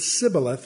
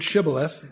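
First: The word begins with an s sound. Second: The word begins with a sh sound. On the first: The speaker calls it wrong. "so it's an S sound" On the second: The speaker calls it right. "First letter of shibboleth is a shin"

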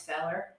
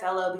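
First: It is said in an Appalachian accent. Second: It is said in a standard American accent. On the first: "becomes feller" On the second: "Fellow becomes"

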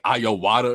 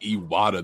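First: The name is said as Iowata. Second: The name is said as Iwata. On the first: The speaker calls it wrong. "They'll just say, like, Iowata or something" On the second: The speaker calls it right. "this community has a problem saying Iwata"

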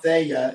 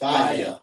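First: The first syllable sounds like 'fay'. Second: The first syllable sounds like 'fah'. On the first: The speaker calls it wrong. "It's not Faya" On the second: The speaker calls it right. "F-A is Fa, and Y-A is Ya, so that's how you pronounce it"

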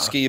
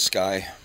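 First: The vowel sounds like 'ee' in 'see'. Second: The vowel sounds like 'eye'. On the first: The speaker calls it wrong. "It's spelled Ski" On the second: The speaker calls it right. "but it's Sky"

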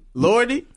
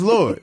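First: The name ends with an added ee vowel. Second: The name ends on the d with no vowel. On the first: "she should pronounce it Lordy" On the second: "when you say it, you can't hear the E"

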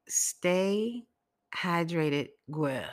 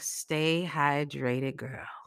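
First: It is said slowly and carefully. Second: It is said quickly, Brooklyn style.

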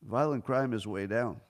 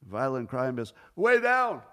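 First: The words 'way down' are said at normal volume. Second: The words 'way down' are said loudly and forcefully. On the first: The claim sounds unremarkable. "if he didn't use the capitals, I would have read it this way" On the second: The claim sounds dramatic and impressive. "the way he's written with the capitals, the way I read it is"

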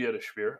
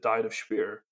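First: Diet sounds like deet, with one long vowel. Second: Diet sounds like the everyday English word diet. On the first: The speaker calls it right. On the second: The speaker calls it wrong.

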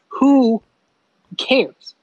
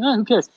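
First: It is asked as a sincere question. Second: It is said with a dismissive shrug.

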